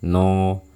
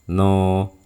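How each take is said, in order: No difference in how they are said.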